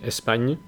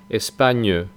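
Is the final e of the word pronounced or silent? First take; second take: silent; pronounced. First: The final e is silent. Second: The final e is pronounced. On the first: This is how it is said in northern France. "en el norte dicen España" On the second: This is how it is said in southern France. "pero en el sur dicen España"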